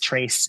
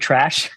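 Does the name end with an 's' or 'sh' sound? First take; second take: s; sh. First: The name ends with an 's' sound. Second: The name ends with an 'sh' sound. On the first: The speaker calls it right. "my last name is pronounced Trace" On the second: The speaker calls it wrong.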